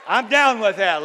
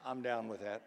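First: High, loud, wholehearted agreement; shouting back to God. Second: Soft, low, barely-there agreement; restrained formal approval. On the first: Believer affirming God's promise in prayer, shouting loudly. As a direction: shout your approval with full force. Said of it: "That's what we shout back to God". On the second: Formal churchgoer answering the sermon, hushed and restrained. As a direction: understate it like a nod at an auction. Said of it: "sort of like a high-class auction". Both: Acted.

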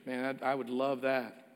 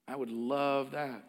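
First: Sincere. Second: Soft slow repeat of "I would love that"; a quiet heartfelt echo of "I would love that"; sincere, slower. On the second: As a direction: say "love" softly, dwelling on it. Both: Real, not acted. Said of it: "If I said to you".

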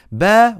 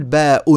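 First: باء said as open "baa"; short-form باء, just "baa"; no hamza. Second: باء pronounced "baa-'un"; باء in two beats, "baa" then "'un"; hamza sounded. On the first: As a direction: end باء on the vowel, without a glottal stop. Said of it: "واللي لا يهمزون اسمها لغة القصر". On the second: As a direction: add a glottal stop and "un" to باء. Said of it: "اللي بيهمزوا اسمها لغة المد". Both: Shown as a demonstration.

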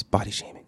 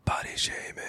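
First: Said in the usual way. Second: Whispering the phrase; whispered. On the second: Shown as a demonstration. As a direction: breathe it out in a whisper. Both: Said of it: "but I'm gonna use it once".

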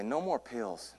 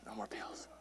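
First: Softly spoken comic aside; quiet aside. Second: Barely audible whisper; whispered aside. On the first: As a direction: drop the volume for a private joke. Joking aside, said then whispered. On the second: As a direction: whisper it to yourself as a joke. Joking aside, repeated in whisper. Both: Real, not acted.

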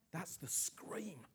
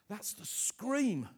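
First: Quiet, slow statement. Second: Slow, a bit louder and higher; slow emphatic declaration. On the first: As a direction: say it slow and hushed. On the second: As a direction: lean on it, slow. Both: Real, not acted.

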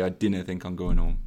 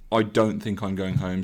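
First: "dinna" said as DIN-na, short i and a schwa ending; dinna instead of don't. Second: Said in the usual way. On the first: Shown as a demonstration. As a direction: swap in the Geordie "dinna" with a crisp short i. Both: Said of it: "so you'd say".

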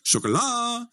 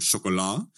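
First: Sjokolade said much higher. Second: Sjokolade said much lower. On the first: Testing the word on locals in a high tone. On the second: Testing the word on locals in a low tone. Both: Shown as a demonstration. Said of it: "i alle mulige tonefall".

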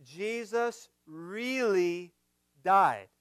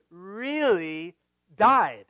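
First: Slow build to a firm died; pause before died. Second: Really died drawn out slowly, landing hard on died; solemn stress on died. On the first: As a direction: hold back, then hit died. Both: Shown as a demonstration. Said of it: "This is so important".

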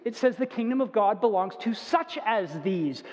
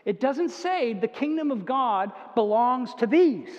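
First: Weight on such as these; right reading. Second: These said as if it were the whole point; wrong reading. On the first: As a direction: lean on such as before these. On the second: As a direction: kingdom of God belongs to these, no such as. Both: Shown as a demonstration. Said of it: "listen carefully to what the Bible says".

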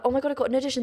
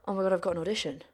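First: Hopeful excitement. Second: Deflated. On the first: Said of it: "you get that hope". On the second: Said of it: "then you get". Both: Retold or imitated.

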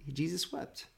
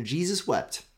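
First: Jesus wept said much softer, almost breathed, ending on a rise; hushed repeat. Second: Said in the usual way. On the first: Shown as a demonstration. Preacher repeats the famous short verse to the congregation, softly hushed. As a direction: let Jesus wept fall away to a hush. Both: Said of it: "Two words".

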